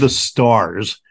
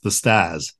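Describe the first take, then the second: First: It is said in a neutral accent. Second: It is said in a Boston accent.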